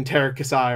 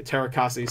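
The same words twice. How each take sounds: First: "Terakasai" ending in a "sigh" sound; "Terakasai", final vowel as in sky; alternate pronunciation. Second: "Terakasi" ending in a "see" sound; "Terakasi", final vowel as in tree; alternate pronunciation. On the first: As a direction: say "Terakasai" with the last syllable rhyming with eye. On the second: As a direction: say "Terakasi" with the last syllable rhyming with key. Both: Shown as a demonstration. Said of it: "however it's pronounced".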